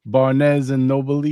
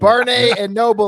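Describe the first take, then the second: First: Drawn-out meme imitation of Barnes and Noble. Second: Loud mock meme delivery. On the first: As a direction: drag out Barnes and Noble like the video. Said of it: "when the guys are outside and they're going". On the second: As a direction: belt out Barnes and Noble as a joke. Echoing the Instagram meme.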